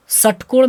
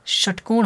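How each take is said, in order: First: षटकोण said as "satkol", with a plain "s"; higher-pitched counterexample षटकोण without the "sh"; mispronounced ष. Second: षटकोण said as "shatkon", clear "sh" onset; corrected षटकोण, settling into "shatkon". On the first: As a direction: begin षटकोण on "s", as a wrong example. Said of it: "नहीं होता है". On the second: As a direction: start षटकोण with a hushing "sh". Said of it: "होता है". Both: Shown as a demonstration.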